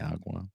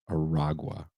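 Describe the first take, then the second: First: The name is said with two syllables, without 'ra'. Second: The name is said with three syllables, including 'ra'. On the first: The speaker calls it wrong. "I kept saying Tren de Agua. I think I spelled it wrong" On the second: The speaker calls it right. "It's Aragua"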